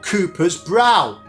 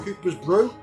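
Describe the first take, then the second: First: The last word rhymes with 'cow'. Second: The last word rhymes with 'shoe'. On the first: The speaker calls it wrong. "you don't pronounce a brow as a brow" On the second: The speaker calls it right. "It's pronounced like a cup of tea, a brew"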